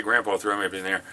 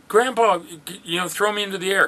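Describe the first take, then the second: First: Said in the usual way. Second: Put-on high, excited child's plea; a grandpa mimicking a small child asking to be thrown; grandkid voice. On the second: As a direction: beg like an eager little grandkid. Grandkids begging grandpa to throw them.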